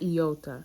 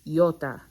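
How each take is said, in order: First: It is said with an English pronunciation. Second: It is said with a Greek pronunciation. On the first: The speaker calls it wrong. "It's not iota" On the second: The speaker calls it right. "It's iota"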